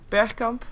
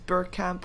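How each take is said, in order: First: The name is said with Dutch pronunciation. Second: The name is said with English pronunciation. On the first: "the Dutch name, you would pronounce it as uh" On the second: "but otherwise"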